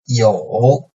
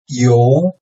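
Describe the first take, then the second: First: The pitch dips low, then rises slightly. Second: The pitch rises from mid to high.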